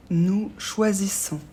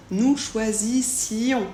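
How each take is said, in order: First: "choisissons" lent, finale sans son I; présent sans I. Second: "choisissions" très lent, I détaché avant on; bien faire entendre -ssi-on dans "choisissions"; I bien prononcé. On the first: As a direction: dire "choisissons" posément, -ssons directement. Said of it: "c'est le I qui va faire la différence entre le présent et l'imparfait". (« choisissons » prononcé sans I avant la finale) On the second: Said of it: "faire bien attention à ne pas oublier le I". (« choisissions » étiré, finale en i-on, S muet) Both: Shown as a demonstration.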